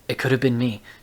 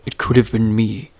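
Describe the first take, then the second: First: It is said in a plain, everyday voice. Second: It is said in a put-on narrator voice.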